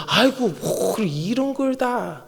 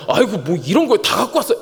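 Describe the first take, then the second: First: Slow, drawn-out bashful thanks; grateful demurral. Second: Brisk, genuine-sounding reproach; mock complaint. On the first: Acted. Someone receives a gift from the pastor, grateful demurral. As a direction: protest slowly while happily accepting. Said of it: "고맙다는 뜻이죠". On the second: Receiver of a gift complains, mock reproach. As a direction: scold them for bringing it. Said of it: "야, 아니잖아요".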